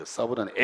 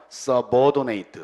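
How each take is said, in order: First: Said in the usual way. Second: Subordinate drawn out syllable by syllable; slow demo. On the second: Shown as a demonstration. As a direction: sound out subordinate very slowly. (subordinate를 아주 천천히 또박또박) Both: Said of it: "중요한 단어 나오네요".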